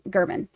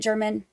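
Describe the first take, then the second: First: The name sounds different from the word German. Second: The name sounds exactly like the word German. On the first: The speaker calls it right. "it's actually pronounced um, Gurman" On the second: The speaker calls it wrong. "I always heard German or said it German"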